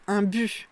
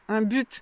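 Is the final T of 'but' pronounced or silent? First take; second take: silent; pronounced. First: The final T sound is silent. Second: The final T sound is pronounced. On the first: "vous aurez des personnes qui vont dire" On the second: "Moi, je prononce le T"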